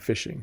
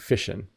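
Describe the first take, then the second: First: The word ends in a full 'ing' sound. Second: The word ends in a shortened 'in' sound. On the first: The speaker calls it right. "It should be the full word" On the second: The speaker calls it wrong. "I don't know why they shorten fishing. It doesn't rhyme when you say it this way"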